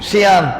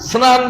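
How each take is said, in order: First: The word begins 'shi' with an added vowel. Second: The word begins with the tight cluster 'sn'. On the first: This is a regional, non-standard form. The speaker calls it wrong. "শিয়ান তো শিয়ান শুদ্ধ বাংলা না" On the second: This is the standard form. The speaker calls it right. "স্নান শুদ্ধ"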